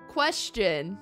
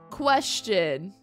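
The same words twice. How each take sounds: The two takes are said the same way.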